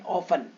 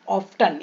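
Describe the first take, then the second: First: No t sound is heard in the middle. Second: A t sound is heard in the middle. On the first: The speaker calls it right. "जब आखिरी में टेन आ रहा है" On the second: The speaker calls it wrong. "इसको भी ऑफ्टन पढ़ेंगे"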